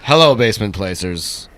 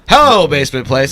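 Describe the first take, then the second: First: It is said in a sexy, sultry way. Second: It is said in a plain, less sexy way.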